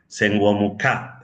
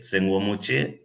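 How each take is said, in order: First: The last syllable starts with a k sound. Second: The last syllable starts with a ch sound. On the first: This is the old pronunciation. "antiguamente se pronunciaba ka" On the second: This is today's pronunciation. "eso que ahora nosotros pronunciamos chie"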